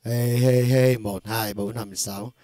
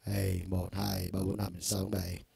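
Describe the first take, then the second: First: Shouted count. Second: Said in the usual way. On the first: Shown as a demonstration. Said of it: "các bạn thấy bình thường nè". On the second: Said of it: "Đây".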